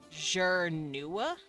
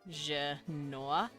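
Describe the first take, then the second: First: The first vowel is an r-coloured 'er' sound. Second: The first vowel is a plain 'eh' sound. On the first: This is how outsiders hear and say the name. "But the humans hear Jernua" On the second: This is how the speakers of the language say their own name. "which they pronounce it Janua, Janua, like this"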